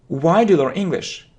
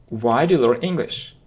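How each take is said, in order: No difference in how they are said.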